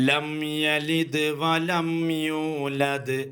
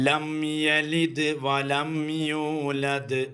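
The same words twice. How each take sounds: The two takes are said the same way.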